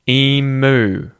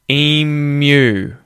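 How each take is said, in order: First: No y sound comes before the u vowel. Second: A y sound comes before the u vowel. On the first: The speaker calls it wrong. "instead of emu" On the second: The speaker calls it right. "you're going to say emu"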